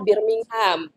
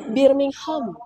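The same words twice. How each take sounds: First: It is said in an American way, ending 'ham'. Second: It is said in a posh British way.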